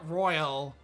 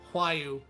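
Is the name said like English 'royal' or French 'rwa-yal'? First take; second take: English royal; French rwa-yal. First: It sounds like the English word royal. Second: It starts with a French-style rwa sound. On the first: The speaker calls it wrong. "not uh, Royal" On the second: The speaker calls it right. "is pronounced Huayu"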